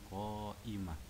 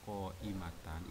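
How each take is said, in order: First: The word ends with an -h sound. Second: The word ends with a -tan sound. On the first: The reading stops at this word. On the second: The reading continues past this word.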